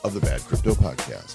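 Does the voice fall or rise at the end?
fall. The voice falls at the end.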